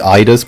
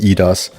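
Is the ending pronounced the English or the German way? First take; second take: English; German. First: The ending is pronounced the English way. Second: The ending is pronounced the German way. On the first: "the way English goes with it, the Eidas part" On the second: "if it's more like German does it, which is the Idas"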